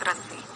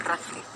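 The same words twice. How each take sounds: The two takes are said the same way.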